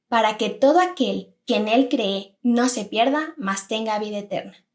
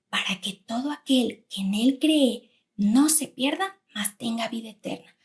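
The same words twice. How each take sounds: First: It is said at normal volume. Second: It is said in a quiet voice.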